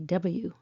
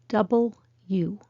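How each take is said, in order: First: The letter name is said shortened. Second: The letter name is said in full. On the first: "a regional, or sometimes lazy, way to say double U" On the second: "this letter is called double U"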